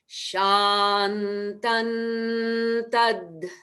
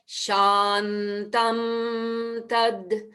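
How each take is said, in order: First: The first word ends with the tongue, an n. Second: The first word ends with closed lips, an m. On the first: The speaker calls it right. "we change that Shantam to a Shantan" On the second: The speaker calls it wrong. "That's not what we want because there's a, a little interruption"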